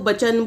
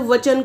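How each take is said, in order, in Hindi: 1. शब्द की शुरुआत b ध्वनि से होती है। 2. शब्द की शुरुआत v ध्वनि से होती है। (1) "वचन को बचन बोल देते हैं" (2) "व की जगह ब का इस्तेमाल किया जाता है"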